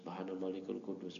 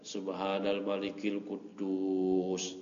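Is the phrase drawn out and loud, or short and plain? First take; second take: short, plain; long, loud. First: The phrase is short and at normal volume. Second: The phrase is drawn out and said louder.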